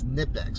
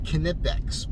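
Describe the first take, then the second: First: The K at the start is silent. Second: The K at the start is sounded. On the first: This is how the speaker believes it is said. "I think the K is silent" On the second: This is how other people say it. "they're pronouncing it"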